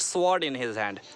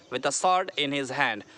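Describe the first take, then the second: First: Sword with an audible w, "swawrd"; wrong pronunciation. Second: Sword said as "sawrd", slow phrase; slowly, no w in sword; silent w. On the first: Teacher warning against the error, w pronounced in sword. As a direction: slowly, sound the w in sword. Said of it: "not sword in his hand". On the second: Teacher giving an example sentence, silent w in sword. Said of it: "डब्ल्यू silent यहाँ पर". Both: Shown as a demonstration.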